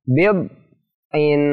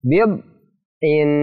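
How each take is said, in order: No difference in how they are said.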